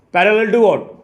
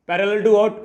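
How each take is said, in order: Both takes have the same delivery.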